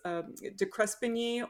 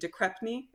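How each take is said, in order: First: The name is said with all its written syllables. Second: The name is shortened to two syllables, 'Crepney'.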